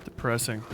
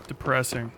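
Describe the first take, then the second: No difference in how they are said.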